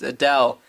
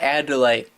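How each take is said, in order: First: The name is said with two syllables. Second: The name is said with three syllables. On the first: The speaker calls it right. "It's Adele" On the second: The speaker calls it wrong. "not Adelaide"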